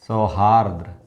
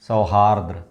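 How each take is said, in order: Both takes have the same delivery.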